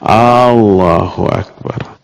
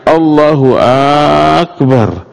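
First: The first vowel of Allah is drawn out long. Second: The first vowel of Akbar is drawn out long. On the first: "A-nya ini disatukan menjadi panjang" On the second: "Atau A pada Akbarnya"

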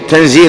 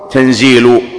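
First: The word ends with a short 'a' vowel. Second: The word ends with a short 'u' vowel. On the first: The word is read as a verbal noun. "وهذه قراءة الجمهور" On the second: The word is read as subject or predicate. "بالضم"

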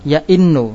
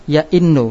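The two takes are said the same way.

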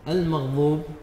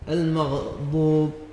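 First: The dad is pronounced like an emphatic z. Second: The ghain is given an echoing bounce. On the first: "استبدال الضاد ضاء" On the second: "قلقلة العين"

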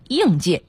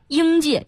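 First: The first syllable has a falling tone. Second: The first syllable has a high level tone. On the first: This is the new standard reading. "现在都要变成应四声" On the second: This is the older reading. "过去读一声"

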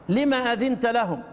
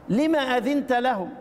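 Both takes have the same delivery.

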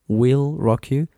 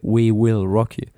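First: 'We will' is contracted into one syllable. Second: 'We will' is said as two full words. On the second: "En lugar de we will rock you"

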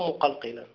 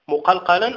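First: The vowel before the last consonant is 'i'. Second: The vowel before the last consonant is 'a'. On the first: The one who makes the letter bounce. "أو بالكسر" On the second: The letter itself is the one made to bounce. "بالفتح"

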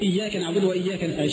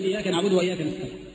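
First: The y sound in iyyaka is held and doubled. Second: The y sound in iyyaka is short and single. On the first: The speaker calls it right. "شددها شوية" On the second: The speaker calls it wrong. "بعض الناس بيخفف الشدة"

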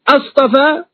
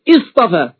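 First: It begins with a firm glottal stop and 'a'. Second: It begins with a connecting glottal stop and 'i'. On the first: It asks a question. "هناك من قراها بالاستفهام اصطفى" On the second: It states a fact. "وهناك من قرأهما بالإخبار اصطفى"

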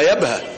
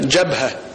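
First: The word starts with a y sound. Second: The word starts with a j sound.

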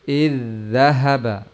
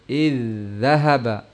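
No difference in how they are said.

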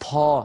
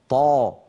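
First: The consonant is followed by a puff of breath. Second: The consonant is firm and voiced with no breath. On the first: The speaker calls it wrong. "ولا يصح أن نقول طا طا، هل سمعتم النفس الذي بعد الطا؟" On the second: The speaker calls it right. "فالطاء الفصيحة طاء مجهورة شديدة هكذا"

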